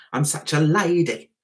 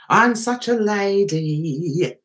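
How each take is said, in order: First: Said in the usual way. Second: Slow, stretched last word; drawn-out repeat. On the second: Pretend. Host to viewers about being such a lady, drawn out. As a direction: linger long on the end of "lady".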